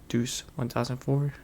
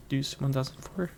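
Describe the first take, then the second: No difference in how they are said.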